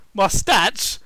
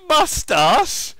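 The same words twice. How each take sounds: First: "Mustache" said shorter, as "MUS-tatch"; questioning mustache. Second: "mustache" stretched out as "muh-STAHSH"; drawn-out mustache. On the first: Repeats word in other pronunciation. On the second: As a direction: say "mustache" loud and slow, with a long AH. Same word said two ways. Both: Acted.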